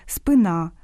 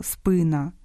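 First: «спина» with the stress on the last syllable, спинА, final а full and clear; wrong stress. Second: «спина» stressed on the first syllable, спИна, final а reduced; correct stress. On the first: Host shows listeners the Russian-influenced mistake, stress on the last syllable of «спина». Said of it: "Під впливом російської мови дехто каже". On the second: Host gives listeners the correct Ukrainian form, stress on the first syllable of «спина». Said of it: "замість правильного". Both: Shown as a demonstration.

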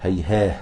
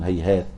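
First: هيهاه with the final t turned into h; pause on h. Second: هيهات ending in a clear stopped t; هيهات held with its final t; pause on t. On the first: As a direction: stop هيهاه on a light h. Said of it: "بال-، بالهاء". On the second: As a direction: close هيهات on a crisp t. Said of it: "بالتاء". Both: Shown as a demonstration.

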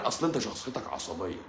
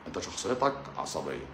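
First: Said in the usual way. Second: Much lower, softer mock doctor; a lower, quieter doctor parody. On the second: Shown as a demonstration. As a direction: put on a patronizing doctor's voice. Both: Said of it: "repeated in a put-on voice".

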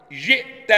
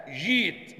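First: "جئت" with a glottal stop after short ji; hamza sounded. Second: "جيت" with a long ee, no glottal stop; hamza turned to ya. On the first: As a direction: cut the vowel of "جئت" on a still hamza. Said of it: "وياء بعد الكسرة". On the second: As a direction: stretch "جيت" as jeet. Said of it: "مش كده؟". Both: Shown as a demonstration.

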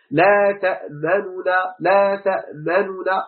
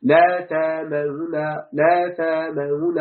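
First: تأمنا with the nuns merged and the lips rounded for a damma; slow Quranic demo of تأمنا with ishmam; ishmam recitation. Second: تامون slowly with rounded lips and a single light nun; slow demo of تامون with a light nun; ishmam without merging. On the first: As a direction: slowly round the lips on تأمنا then a doubled nun. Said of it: "أي الإشارة بالشفتين للضمة". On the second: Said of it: "يعني مع تخفيف النون". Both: Shown as a demonstration.

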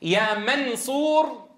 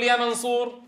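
First: "يا منصور" with the ن hidden and a long nasal hum; long nasal ikhfa. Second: "يا منصور" with the ن pronounced clearly, no nasal hold; crisp ن in "منصور"; clear n sound. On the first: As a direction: stretch the nasal in "منصور" slowly. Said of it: "هل تجد من اليسير عليك أن تقول". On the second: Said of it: "ولا أن تقول". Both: Shown as a demonstration.

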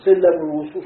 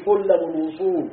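First: سلم الوصول بنغمة صاعدة وأعلى; ارفع النغمة على سلم; rising emphasis. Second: Said in the usual way. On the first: Shown as a demonstration. (تأكيد صاعد على سلم الوصول) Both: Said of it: "الخليل قال كده".

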